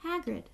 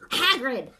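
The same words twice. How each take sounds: First: Said in the usual way. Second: "Hagrid!" called sharply, much louder; loudly. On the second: A narrator's reading. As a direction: cut him off with a loud "Hagrid!". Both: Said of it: "said Dumbledore loudly".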